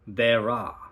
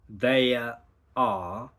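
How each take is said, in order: First: An R sound links the two words smoothly. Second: The words are separated with no R sound. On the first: "you can go there are" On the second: "instead of there are"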